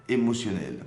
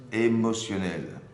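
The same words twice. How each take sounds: First: Said in the usual way. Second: "Émotionnelle" drawn out slowly for emphasis; slow, weighted "Émotionnelle"; emphatic repeat. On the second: Real, not acted. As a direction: stretch out "Émotionnelle" to drive it home. Key word repeated for emphasis.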